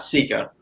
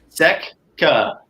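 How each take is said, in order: First: The first vowel is a long 'ee' sound. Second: The first vowel is a short 'eh' sound. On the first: The speaker calls it wrong. "not Sika because it doesn't have two E's" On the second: The speaker calls it right. "It's Seca"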